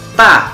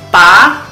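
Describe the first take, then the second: First: It is said with the fourth tone. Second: It is said with the first tone.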